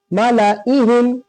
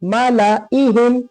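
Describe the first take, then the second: The two takes are said the same way.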